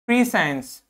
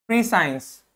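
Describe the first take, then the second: No difference in how they are said.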